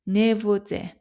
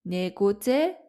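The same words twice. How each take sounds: First: 네보제 with a V sound for the written G; everyday pronunciation. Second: 네고제 with a hard G in the middle; spelling pronunciation. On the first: Teacher showing learners normal speech, 네보제 with a V sound. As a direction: say 네보제, the middle consonant like V. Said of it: "usually pronounced like V sound". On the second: Teacher showing learners the written form, 네고제 with a clear G. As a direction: say 네고제 as spelt, sounding the G. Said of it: "we write the letter G". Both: Shown as a demonstration.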